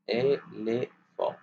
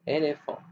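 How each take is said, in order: First: Éléphant slowed into é, lé, phant; split into syllables. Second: Said in the usual way. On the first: Shown as a demonstration. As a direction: separate éléphant into three slow beats. (« éléphant » découpé lentement en syllabes) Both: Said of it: "découper".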